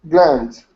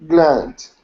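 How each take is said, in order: The two takes are said the same way.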